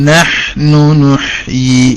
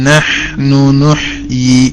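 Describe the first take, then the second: Both takes have the same delivery.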